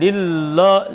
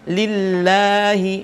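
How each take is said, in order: First: The first l sound is thick and heavy. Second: The first l sound is thin and light. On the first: The speaker calls it wrong. "bukan lillah" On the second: The speaker calls it right. "pastikan kita baca tipis"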